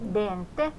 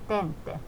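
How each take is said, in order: First: The word begins with a voiced d sound. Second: The word begins with a voiceless t sound. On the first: The speaker calls it right. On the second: The speaker calls it wrong. "Ei tente"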